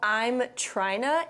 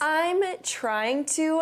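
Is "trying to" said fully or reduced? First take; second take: reduced; fully. First: Trying to is blended together casually. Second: Trying to is said fully and carefully.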